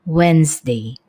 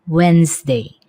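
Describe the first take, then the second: Both takes have the same delivery.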